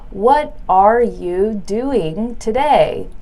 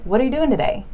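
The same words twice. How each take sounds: First: Each word is said slowly and separately. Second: The words run smoothly together at normal speed. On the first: The speaker calls it wrong. "That's kind of slow and it just sounds choppy" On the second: The speaker calls it right. "it sounds more natural"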